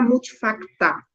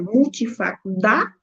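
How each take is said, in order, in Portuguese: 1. O sufixo começa com som de t. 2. O sufixo começa com som de d. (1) "mudar justamente do dá para o tá" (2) "muito feio, muito pesado"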